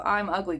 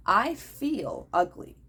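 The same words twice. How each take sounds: First: Said in the usual way. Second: Slow, "feel" pressed hard, "ugly" falling; slow deliberate "I feel ugly" with weight on "feel"; stress on feel. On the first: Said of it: "emphasis on feel, not am". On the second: Shown as a demonstration. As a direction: lean on "feel" instead of saying am. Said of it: "emphasis on feel".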